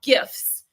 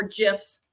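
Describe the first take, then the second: First: "gifs" with a hard g, as in gift. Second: "gifs" with a soft g, like Jif peanut butter. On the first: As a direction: say "gifs" starting with a hard g sound. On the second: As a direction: say "gifs" as "jifs". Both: Shown as a demonstration. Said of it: "I say gif 'cause Jif is a peanut butter".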